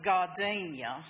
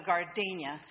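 First: Put-on "gardenia" said the old Selma, Alabama way; "gardenia" as a Southern great-grandmother says it; great-grandmother's Selma pronunciation. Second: Said in the usual way. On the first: Shown as a demonstration. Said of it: "I think that's how she said it". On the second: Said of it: "the only way I've ever heard it pronounced".

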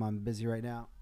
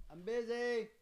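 First: Said in the usual way. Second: Calling out. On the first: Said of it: "Let me just tell them". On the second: Real, not acted. Host to kids knocking at the door, calling out. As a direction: call it out high, away from the mic. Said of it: "Let me just tell them I'm busy right now".

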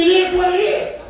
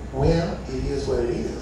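First: Higher, indignant rising echo; incredulous repeat of the ex; outraged echo. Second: Much lower, softer shrug; mock dismissive ex; dismissive baby mama. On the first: Acted. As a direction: throw her words back in disbelief. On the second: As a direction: toss it off like you don't care.

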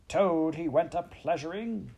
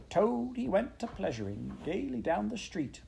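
First: High, indignant yell. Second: High-pitched singsong weasel; high squeaky voice. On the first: Toad storming in with injured pride, yelling. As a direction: throw the taunt back at a raised pitch. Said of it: "he yelled". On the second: Chief Weasel performing his song about Toad, high and squeaky. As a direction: squeak out a teasing little ditty. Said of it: "began in a high, squeaky voice". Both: A narrator's reading.

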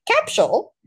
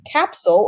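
First: Mock Australian "capsule", higher pitched; put-on Australian pronunciation, pitched up; Australian accent. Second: Said in the usual way. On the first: Shown as a demonstration. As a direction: say "capsule" as "cap-shool", Aussie style. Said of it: "as Australians would say". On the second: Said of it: "as Australians would say, capsule".

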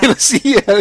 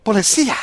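First: High, loud bad Mexican accent; exaggerated Mexican accent; shitty Mexican accent. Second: High rising bad Mexican accent; hammy Mexican accent; shitty Mexican accent. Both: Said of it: "doing the shitty Mexican accent".

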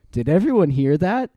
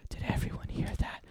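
First: Said in the usual way. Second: Hushed, fully whispered question; very soft, secretive whisper. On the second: A narrator's reading. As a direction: whisper it to the group. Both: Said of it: "Tobias whispered".

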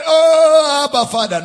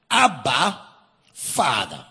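First: A whimpering, pleading "Oh, Abba, Father"; mock weepy plea. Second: "Abba" called out strong, "Father" dropped low; overwhelming cry. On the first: Preacher mocks a tearful cry, whining. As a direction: wail it like a weak, sad plea. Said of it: "No, it means to shout out an overwhelming tone". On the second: Preacher demonstrating the true cry, emphatic. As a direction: proclaim it with full emphasis. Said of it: "No. This is a message of the Spirit". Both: Shown as a demonstration.

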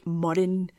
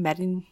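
First: "Murrin" said as MURR-in; first syllable of "Murrin" as MURR, not MERR; spelling pronunciation. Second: "Murrin" said as MERR-in; first vowel of "Murrin" like merry; expected pronunciation. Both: Shown as a demonstration. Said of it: "It's spelled on everything".

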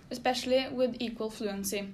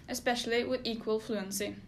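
The two takes are said the same way.

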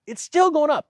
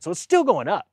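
First: Much higher, pressing the point; stunned emphatic repeat. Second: Said in the usual way. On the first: Shown as a demonstration. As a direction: hammer it home, pitched way up. Repeating the inflation number.

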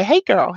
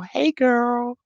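First: Said in the usual way. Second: Put-on, stretched-out "girl"; playful drawn-out greeting. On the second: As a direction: repeat the hello playfully, drawing out "girl". Playful repeat of greeting to viewer.

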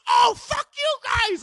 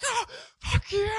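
First: High, loud, drawn-out mock shout; left-behind furious yell. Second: High, drawn-out mock yell, held back; receding movie yell. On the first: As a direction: holler after a departing car, imitating him. Friend left behind as car leaves. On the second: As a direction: imitate someone yelling as he's left behind. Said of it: "they run away from, like, some guy".

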